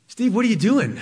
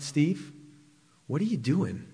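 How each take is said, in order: First: Louder, higher, demanding question; loud voice of God. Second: Softer, hushed question to Steve; quiet voice of God. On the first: God confronts Steve in the parking lot, loud and demanding. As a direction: call it out sharply so it stops him. God's question, repeated strongly. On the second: God quietly stops Steve in the parking lot, hushed. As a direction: lay it down gently, almost to yourself. God's question, first telling. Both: Retold or imitated.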